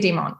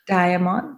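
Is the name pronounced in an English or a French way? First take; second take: French; English. First: The name is pronounced in a French way. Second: The name is pronounced in an English way. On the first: "my brain still has that sort of elementary school training to pronounce them in the French way" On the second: "but maybe it's Diamond"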